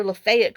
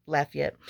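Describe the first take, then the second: First: Lafayette said the local way, "luh-FAY-et"; local pronunciation. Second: Lafayette said "LAFF-ee-et"; own pronunciation. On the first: Acted. Telling what she said to her neighbor, Lafayette pronounced the local way, luh-FAY-et. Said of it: "they call it Lafayette". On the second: Shown as a demonstration. Going back to her preferred way, Lafayette pronounced LAFF-ee-et. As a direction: stress the front of Lafayette, "LAFF-ee-et". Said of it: "going back to Lafayette".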